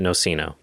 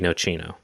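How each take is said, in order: First: The word is said with an American pronunciation. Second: The word is said with an Italian pronunciation. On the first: The speaker calls it wrong. "Americans pronounce it Nocino" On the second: The speaker calls it right. "but it should be Nocino"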